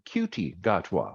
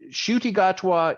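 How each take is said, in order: First: The first name begins with a K sound. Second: The first name begins with a Sh sound. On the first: The speaker calls it wrong. "I keep wanting to call him Cutie Gatwa" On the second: The speaker calls it right. "but his name is Shuti"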